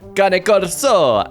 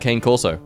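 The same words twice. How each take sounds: First: It is pronounced with an exaggerated Italian accent. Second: It is pronounced with a plain English accent. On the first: The speaker calls it right. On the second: The speaker calls it wrong.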